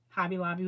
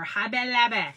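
First: The name is said in a plain, ordinary voice. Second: The name is said in a playful, put-on voice.

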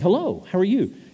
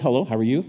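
First: It is said in a warm, eager way. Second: It is said in a reserved, formal way.

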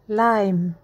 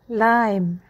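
The two takes are said the same way.

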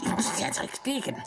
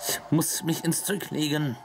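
First: It is said in a put-on character voice. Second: It is said in the speaker's normal voice.

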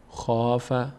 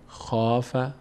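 Both takes have the same delivery.

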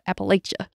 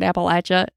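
First: It is said the way outsiders pronounce it. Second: It is said the way local people pronounce it. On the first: The speaker is from outside the region. "others call it Appalachia" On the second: The speaker is from the region. "We say Appalachia here in Appalachia"

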